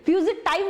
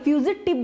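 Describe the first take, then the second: First: The last syllable has a long 'eye' vowel. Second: The last syllable has a short 'i' vowel. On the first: The speaker calls it wrong. "फ्यूजिटाइव मत बोलिए" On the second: The speaker calls it right. "फ्यूजिटिव बोलिए"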